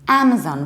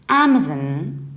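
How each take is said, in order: First: The last syllable is a full 'zon'. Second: The last syllable is reduced to a weak 'zin'. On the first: "pronouncing this zon" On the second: "Amazon with reduced ending zin"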